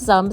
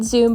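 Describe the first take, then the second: First: The vowel is a short 'u' sound. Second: The vowel is a long 'oo' sound. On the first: The speaker calls it right. "it's actually pronounced Zum" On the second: The speaker calls it wrong. "I've been calling it Zoom"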